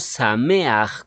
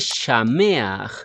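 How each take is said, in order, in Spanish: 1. La palabra empieza con un sonido s simple. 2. La palabra empieza con un sonido sh. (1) "con sonido S" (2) "la fonética correcta de la palabra traducida como feliz es Shameach"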